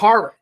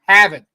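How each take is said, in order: First: The r sounds are clearly pronounced. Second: The r sounds are dropped, Boston style. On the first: The speaker calls it wrong. "I can't say Harvard because that's not how you say it" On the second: The speaker calls it right. "You're in Boston"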